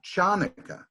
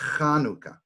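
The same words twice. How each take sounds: First: It begins with a ch sound like chair. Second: It begins with a rough sound in the throat. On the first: The speaker calls it wrong. "also not Chanukah, even though it looks like it's Chanukah" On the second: The speaker calls it right. "it's really Chanukah"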